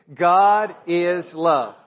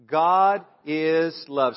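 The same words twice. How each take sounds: First: Louder, slow and emphatic, every word weighed; with conviction. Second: Said in the usual way. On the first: Shown as a demonstration. Pastor leading the church to declare it, louder and slow. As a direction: say it like you truly mean it. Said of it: "Say it like you mean it". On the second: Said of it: "Say that with me".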